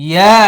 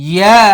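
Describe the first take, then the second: Both takes have the same delivery.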